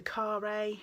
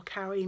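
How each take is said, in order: First: "Carre" said as "car-AY", two syllables ending in ay; French-style pronunciation. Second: "Carre" said as "carry", stress on the first syllable; English-style pronunciation. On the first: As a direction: say "Carre" like "kar-ay", slowly. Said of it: "or Carre mitts". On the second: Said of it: "the Carre mitts". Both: Shown as a demonstration.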